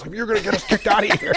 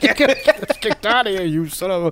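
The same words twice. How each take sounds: First: Laughing scold. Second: Higher mocking squeal of the scold; teasing mimicry of his wife; mock high whine. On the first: Retold or imitated. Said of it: "my wife's like". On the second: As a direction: parrot her back in a silly high voice. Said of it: "I was like".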